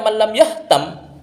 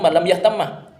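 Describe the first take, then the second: First: The word ends on one short m, no vowel. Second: The final m is doubled and followed by a. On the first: The speaker calls it wrong. "berarti mimnya satu itu" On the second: The speaker calls it right. "Yang benar itu malam yahtamah, dibaca fathah"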